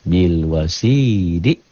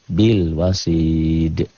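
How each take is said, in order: First: The word ends on a final vowel. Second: The word ends with a strong bounced consonant. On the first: The reading continues past this word. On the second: The reading stops on this word.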